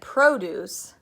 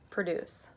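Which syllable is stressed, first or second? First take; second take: first; second. First: The stress is on the first syllable. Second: The stress is on the second syllable. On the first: It names a thing, fruit and vegetables. "First I said produce, the produce at Harris Teeter" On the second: It names an action, to make. "with this pronunciation, it's a verb"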